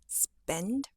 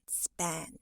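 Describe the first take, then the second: First: The vowel is an E sound. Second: The vowel is a wide A sound. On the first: The speaker calls it right. "use an E sound, it would sound like spend" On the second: The speaker calls it wrong. "rather than span"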